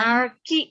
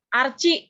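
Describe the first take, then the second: First: The second syllable begins with a 'k' sound. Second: The second syllable begins with a 'ch' sound. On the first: The speaker calls it right. "huruf ki" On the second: The speaker calls it wrong. "ah Archie lagi"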